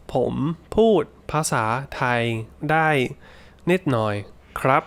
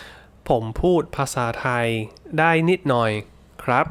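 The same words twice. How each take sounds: First: Measured, with pauses between the Thai words. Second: Said in the usual way. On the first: Shown as a demonstration. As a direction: space out each word for learners. Teacher repeats example slowly for learners. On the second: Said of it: "So, for example".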